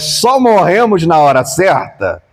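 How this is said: It is said as a question.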